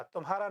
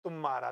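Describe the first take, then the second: First: तुम्हारा as "tu-mhaa-raa", light तु and audible h; तुम्हारा with a light start, breathed mh; no stress on first syllable. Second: तुम्हारा as "tum-maara", weight on तु; तुम्हारा with stressed first syllable, h dropped. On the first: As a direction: keep तु short and unstressed in तुम्हारा. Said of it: "और तुम्हारा में बल नहीं है". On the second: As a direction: hit the तु of तुम्हारा and double the m. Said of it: "तुम्हारा में तू पे बल है". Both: Shown as a demonstration.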